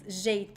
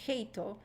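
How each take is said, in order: First: It begins with a buzzing zh sound. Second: It begins with a breathy h sound. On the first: The speaker calls it right. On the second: The speaker calls it wrong.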